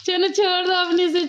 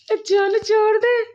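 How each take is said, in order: First: Said in the usual way. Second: Slow, sung चलो, छोड़ दे; sung, singsong coaxing. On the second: Real, not acted. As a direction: croon it slowly like a little tune.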